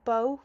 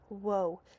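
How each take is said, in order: First: The word begins with a b sound. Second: The word begins with a w sound. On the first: "instead of it sounding like buh" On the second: "it's changed into a w sound"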